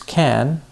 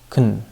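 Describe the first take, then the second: First: The word is said with a full vowel. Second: The word is said with a weak, reduced vowel. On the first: "we would reduce can to kun" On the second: "we would reduce can to kun"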